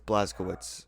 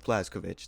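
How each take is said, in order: First: The name ends with a 'witz' sound. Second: The name ends with a 'vich' sound. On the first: This is the way the game says it. "it is pronounced Blaskowitz" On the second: This is the original Polish way of saying it. "the Polish pronunciation is Blaskovich"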